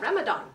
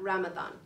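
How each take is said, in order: First: The middle consonant is said as spelled. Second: The middle consonant is said as th. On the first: The speaker calls it wrong. "I'll help you not say" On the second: The speaker calls it right. "pronounced with a T H, and that is an Arabic pronunciation"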